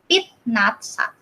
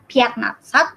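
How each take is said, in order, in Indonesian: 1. Vokal pertama dibaca 'ee'. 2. Vokal pertama dibaca 'ya'. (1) "tapi dibacanya jadi pit natsat" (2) "ini bacanya bukan piat natsat"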